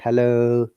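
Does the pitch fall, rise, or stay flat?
flat. The pitch stays level throughout.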